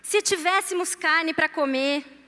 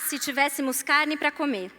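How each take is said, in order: First: It is read with expressive, complaining intonation. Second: It is read in a plain, neutral tone.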